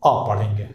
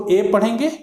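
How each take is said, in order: First: "अ" as the article, a neutral schwa; weak word-form "a". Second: "ए" as the alphabet letter's name. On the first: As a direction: say "अ" as a short uh. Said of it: "word order में इसको". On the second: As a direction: say "ए" as a long ay. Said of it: "alphabetically में ए means". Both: Shown as a demonstration.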